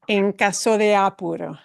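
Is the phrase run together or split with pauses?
run together. The words run together without pauses. The speaker calls it right. "that would all run together"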